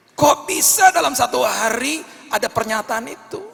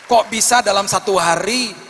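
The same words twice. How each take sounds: First: Even higher, loud wonder; rising amazement. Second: Loud, high marvelling; amazed exclamation. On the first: Preacher marvelling at the miracle, higher still. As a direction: build the astonishment to a peak. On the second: Preacher marvelling to the congregation, loud and high. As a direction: sell the miracle. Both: Real, not acted.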